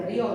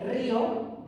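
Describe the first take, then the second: First: "río" as one syllable, rio with stressed o. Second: "río" in two syllables, RÍ-o; stress on the Í. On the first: Teacher reading the verb form without tilde, stress on O. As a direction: glide from i onto a stressed o in "río". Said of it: "Esto no lleva tilde". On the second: Teacher contrasting the word with tilde, stressed Í. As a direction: lean on the í in "río", then a light o. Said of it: "si lleva tilde". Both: Shown as a demonstration.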